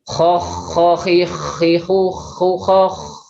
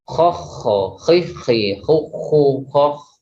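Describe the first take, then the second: First: The kh friction sound flows on continuously. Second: The kh friction sound is cut off short. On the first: The speaker calls it right. "jadi terasa mengalirnya suara huruf kho ini" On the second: The speaker calls it wrong. "Kalau seandainya tidak mengalir seperti apa?"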